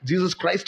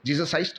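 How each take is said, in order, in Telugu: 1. 'Christ' మొదట్లో ఉన్న 'kr' పలుకుతారు. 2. 'Christ' మొదట్లో ఉన్న 'kr' వదిలేస్తారు. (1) "క్లియర్గా" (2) "జీసస్ క్రైస్ట్ అనే పదం క్లీన్గా మాట్లాడలేడు. జీసస్ ఐస్ట్ అంటాడు అంతే"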